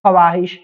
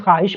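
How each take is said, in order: First: ख्वाहिश with the w sounded, kha-waa-hish; ख्वाहिश with an audible w; as written. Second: ख्वाहिश said khaa-ish, w dropped; ख्वाहिश with no w sound; silent w. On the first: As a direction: read ख्वाहिश as spelt, "khawaahish". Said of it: "यहाँ पे लिखा हुआ है". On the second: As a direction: read ख्वाहिश as "khaahish". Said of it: "क्या पढ़ते हैं". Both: Shown as a demonstration.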